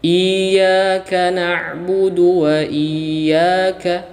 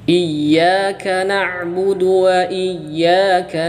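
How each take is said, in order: First: The first vowel is long; the y is single. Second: The first vowel is short; the y is doubled. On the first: The speaker calls it wrong. "hamzah panjang, tasydid hilang" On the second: The speaker calls it right. "Yang betul adalah hamzah pendek, kemudian ya-nya ditasydid"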